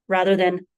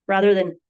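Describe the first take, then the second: Both takes have the same delivery.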